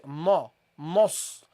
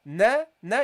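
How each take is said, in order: First: "na, nos" with a dark, heavy vowel; low, backed vowel in "na, nos"; heavy noon mistake. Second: "na" with a light, fronted vowel; "na, na" kept light, without heaviness; light noon. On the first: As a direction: wrongly thicken "nos" from the first sound. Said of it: "So don't say". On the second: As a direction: start "na" thin and light. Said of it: "you see, you start light". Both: Shown as a demonstration.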